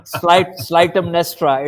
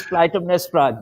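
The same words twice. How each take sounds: First: "Clytemnestra" begun with an S, as Slytemnestra; wrong soft-C Clytemnestra. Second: "Clytemnestra" begun with a K, as Klytemnestra; hard-C Clytemnestra. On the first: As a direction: mispronounce "Clytemnestra" with S-L at the start. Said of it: "you cannot pronounce it". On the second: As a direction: pronounce "Clytemnestra" with K-L at the start. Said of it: "It, it is Clytemnestra". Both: Shown as a demonstration.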